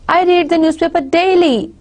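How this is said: The emphasis falls on the word daily. The focus is on how often it happens. "It's on daily"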